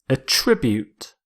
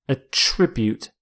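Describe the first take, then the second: Both takes have the same delivery.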